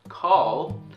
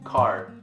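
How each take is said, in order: First: The word ends with a clear L sound. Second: The word ends with an R-like sound. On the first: The speaker calls it right. "this word correctly. Call" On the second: The speaker calls it wrong. "A lot of Korean people would pronounce it as card"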